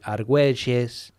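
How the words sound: The name is said with an Argentine Spanish pronunciation. "In uh, Argentina and Uruguay, it would be"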